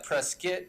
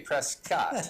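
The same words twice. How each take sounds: First: The last syllable is short and reduced. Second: The last syllable sounds like the full name Scott. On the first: This is the accepted local pronunciation. The speaker calls it right. "Prescott is how you're supposed to pronounce it" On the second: The speaker's own name is in it. The speaker calls it wrong. "I like to say Prescott because my name is Scott"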